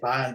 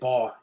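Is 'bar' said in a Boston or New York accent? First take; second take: Boston; New York. First: It is said in a Boston accent. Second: It is said in a New York accent. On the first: "you say bar" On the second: "We say bar"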